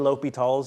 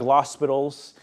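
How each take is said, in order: First: No s sound is said before the t. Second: An s sound is said before the t. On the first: The speaker calls it right. "but it's really" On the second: The speaker calls it wrong. "It looks like"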